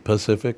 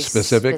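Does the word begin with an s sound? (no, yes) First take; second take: no; yes. First: The word begins without an s sound. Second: The word begins with an s sound. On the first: The speaker calls it wrong. "Because you say Pacific" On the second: The speaker calls it right. "I have to stop and say"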